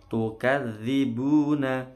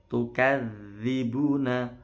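The two takes are said the same way.

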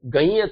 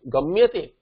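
First: The vowel is nasalized, with no full M. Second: A full M sound is pronounced before 'yate'. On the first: The speaker calls it wrong. "Gayate it will become, and gayate is asadhu prayoga" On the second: The speaker calls it right. "it should remain gamyate"

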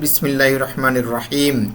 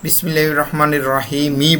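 First: The last word ends sharply on a consonant. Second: The last word ends with an added vowel sound. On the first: The speaker calls it right. "কিন্তু বাস্তবে আমরা পাঠ করি" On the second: The speaker calls it wrong. "যদিও আমি শেষে বিসমিল্লাহির রহমানির রহিমই বলেছি"

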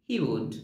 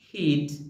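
First: It is said as two separate full words. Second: It is said as one contracted word.

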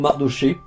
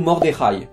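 First: The name is said with a French pronunciation. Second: The name is said with a Hebrew pronunciation. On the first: "Normalement en français on dit plutôt Mardoché" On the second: "en hébreu on dit plutôt Mordechai"

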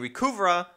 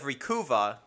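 First: An extra R sound occurs mid-word. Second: No extra R sound occurs mid-word. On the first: The speaker calls it wrong. "I've been saying Recuva ... I threw an extra R in there" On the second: The speaker calls it right. "instead of Recuva"

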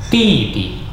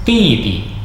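No difference in how they are said.

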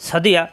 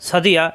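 Both takes have the same delivery.

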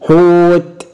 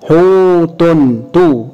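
First: The word stops on a bare t. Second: A short vowel follows the final t. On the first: The speaker stops on the word. "هقف عليها بالسكون حوت" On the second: The word is joined to what follows. "هشكلها حوت تو"

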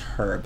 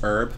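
First: The word begins with an audible 'h' sound. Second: The word begins with a vowel sound and no 'h'. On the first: This is how some others, such as in the UK, say it. "but some people pronounce it as herb" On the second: This is how the speaker says it. "I pronounce it as herb"

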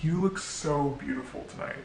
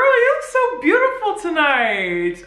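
First: It sounds flirty and intimate. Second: It sounds friendly and bubbly.

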